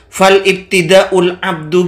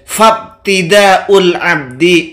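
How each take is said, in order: First: It begins with 'fal' and ends in 'u'. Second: It begins with 'fab' and ends in 'i'. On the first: The speaker calls it wrong. "Fal ibtida'ul abdu gimana sih?" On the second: The speaker calls it right. "Abdi bukan abdu"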